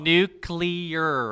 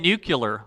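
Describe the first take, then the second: First: The word is said with a nuclear-like ending. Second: The word is said with a nucular-like ending. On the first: The speaker calls it right. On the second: The speaker calls it wrong. "You said nuclear"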